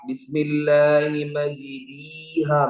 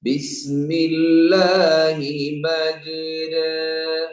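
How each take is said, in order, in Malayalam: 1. നീണ്ട സ്വരം ലളിതമായ 'ee' ആണ്. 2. നീണ്ട സ്വരം 'a'യ്ക്കും 'ee'ക്കും ഇടയിലാണ്. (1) "ഇത് യാ ആണ് എങ്ങനെ ഉണ്ടാകാ?" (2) "മജിരീയുടെയും മജ്റായുടെയും ഇടയിലായി"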